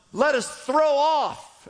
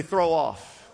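First: Slow, weighty stress on "throw off"; stressed slowly. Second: Said in the usual way. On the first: Shown as a demonstration. Preacher to congregation, slow stressed "throw off". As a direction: lean into "throw off", slowed. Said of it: "You gotta throw off". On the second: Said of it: "Everybody say".

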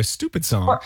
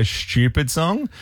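First: "Stupid song" in an American accent, a rounded oo in "Stupid". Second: "stupid song" in an Australian accent, the u in "stupid" pushed forward. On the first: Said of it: "I have to become an American". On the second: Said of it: "In the Australian accent, we say". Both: Shown as a demonstration.

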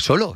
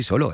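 First: Incredulous question. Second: Said in the usual way. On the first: Retold or imitated. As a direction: voice a child's surprised protest. (pregunta incrédula, en tono agudo)

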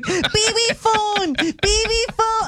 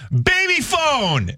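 First: Put-on high, slow little-kid chant; toddler voice. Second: High, slow mock yell of baby phone; dad yelling a toddler's words down the phone, high and drawn out; retold scream. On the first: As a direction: copy a toddler demanding the phone, high and slow. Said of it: "Mav was like". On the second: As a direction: play the goofy on-air shout, drawn out high. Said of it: "I screamed".

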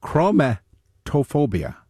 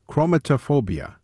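First: Chromatophobia sounded out slowly, syllable by syllable; slow careful pronunciation. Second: Said in the usual way. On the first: Shown as a demonstration.

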